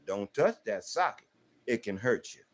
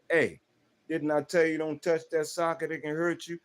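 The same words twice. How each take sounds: First: Put-on calm first warning to a child; steady instruction, no anger. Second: Firmer second warning, "tell" stressed. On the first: Father warning his child about the socket, calm. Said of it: "I'm gonna warn you with instruction". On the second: Father telling his child off again, firmer. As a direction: lean on "tell" like a reminder. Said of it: "Second time you go over there". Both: Shown as a demonstration.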